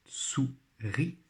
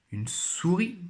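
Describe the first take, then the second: First: "Souris" split into sou, pause, ris; syllable by syllable. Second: Said in the usual way. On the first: Shown as a demonstration. Teacher helping pupils find the syllable, syllable by syllable. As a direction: sound out "Souris" slowly in two beats. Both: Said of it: "Toujours première syllabe".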